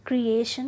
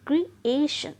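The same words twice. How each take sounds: First: creation run together, with no stretch on the ए; unstretched wrong take. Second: ए in creation stretched, high and loud; stress on second syllable. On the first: Teacher showing learners what to avoid, creation without the stretched ए. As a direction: say creation in one piece, ए left short. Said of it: "नहीं". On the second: Teacher correcting the wrong take, creation with a drawn-out ए. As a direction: split off क्रि, then lean hard on the ए of creation. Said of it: "खींच कर बोल रहे हैं". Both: Shown as a demonstration.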